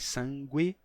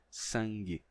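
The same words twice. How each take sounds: First: A w sound follows the g. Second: No w sound follows the g. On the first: This is the older pronunciation. "Não ser mais sangue" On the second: This is the current pronunciation. "mas sim sangue"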